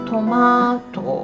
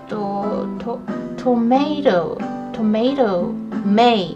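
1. 真ん中の母音は長い'ah'の音です。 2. 真ん中の母音は'may'のような音です。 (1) "イギリスの場合はトマト伸ばす感じ" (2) "トメイトメイって感じで"

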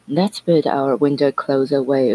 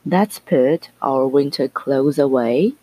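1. 这个句子是正常速度说的。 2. 这个句子是慢速、仔细地说的。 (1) "先正常速度" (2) "慢速的话"

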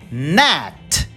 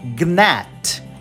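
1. A palavra começa direto com o som de N. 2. Ouve-se um som de G antes do N. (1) "suprime o som da letra G e vamos direto pro N" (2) "a pessoa tem vontade de falar gnat, mas não"

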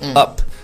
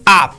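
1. 这个元音发音时嘴型小而放松。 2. 这个元音发音时嘴张得很大。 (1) "就是读up 就可以了" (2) "你的这个口型不要太大，不要读成up"

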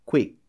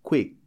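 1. A palavra para bruscamente no k final. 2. A palavra para bruscamente no k final.

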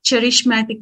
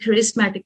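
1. ఈ పదం ch శబ్దంతో మొదలవుతుంది. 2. ఈ పదం k శబ్దంతో మొదలవుతుంది. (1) "చాలా మంది దీన్ని చరిష్మాటిక్ అంటారు" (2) "కొంతమంది కరిస్మాటిక్ అంటారు, but I go with the word కరిస్మాటిక్"

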